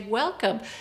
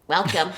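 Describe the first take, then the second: First: It sounds warm and welcoming. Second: It sounds cold and rejecting.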